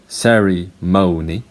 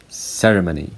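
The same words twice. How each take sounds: First: It has two stressed syllables. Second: It has one stressed syllable. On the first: "Americans say ceremony" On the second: "British people say ceremony"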